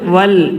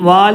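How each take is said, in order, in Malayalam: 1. സ്വരം ചെറുതായി തന്നെ ഉച്ചരിക്കുന്നു. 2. സ്വരം നീട്ടി ഉച്ചരിക്കുന്നു. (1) "കൂട്ടി വയ്ക്കുമ്പോൾ വൽ" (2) "വാൽ എന്ന് വായിക്കരുത്"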